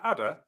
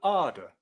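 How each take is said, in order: First: It has a short flat a vowel. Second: It has a long ar vowel. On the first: "standard Southern British English" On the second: "A before double D becomes R"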